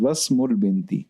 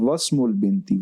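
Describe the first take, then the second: The two takes are said the same way.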